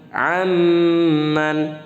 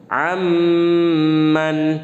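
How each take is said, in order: No difference in how they are said.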